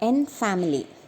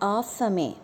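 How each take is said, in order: First: It is said like the English word family. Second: It is said with a French vowel and ending. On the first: The speaker calls it wrong. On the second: The speaker calls it right.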